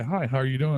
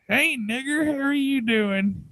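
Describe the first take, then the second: First: Said in the usual way. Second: Put-on very high, drawn-out old-woman voice; old granny. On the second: Granny greeting a passer-by in the store, old-woman voice. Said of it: "this old, like, old-ass woman".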